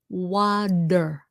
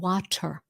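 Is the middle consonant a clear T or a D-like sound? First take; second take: D-like; clear T. First: The middle consonant sounds like a D. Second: The middle consonant is a clear T. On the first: The speaker calls it right. "it's pronounced with the D sound, like water" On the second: The speaker calls it wrong. "Không phải là water"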